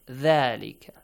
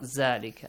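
First: The word begins with a soft th sound. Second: The word begins with a buzzing z sound. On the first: The speaker calls it right. "You gotta pronounce it correctly" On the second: The speaker calls it wrong. "not Zalika. Zalika with Z"

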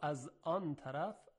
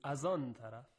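First: A clear glottal stop separates the first two words. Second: The glottal stop is dropped and the words run together.

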